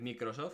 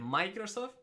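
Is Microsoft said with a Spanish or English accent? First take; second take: Spanish; English. First: It is said with a Spanish accent. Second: It is said with an English accent. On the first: Listeners find it normal. "te dicen los españoles, bien" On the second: Listeners think the speaker is showing off. "¿qué haces pronunciando bien inglés?"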